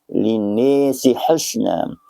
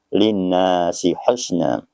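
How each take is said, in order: First: The vowel after n is tilted toward i. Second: The vowel after n is a plain open a. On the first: This is one transmitted reading of the word. "dibaca secara imalah fathah wal alif" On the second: This is another transmitted reading of the word. "membaca secara tahqiq"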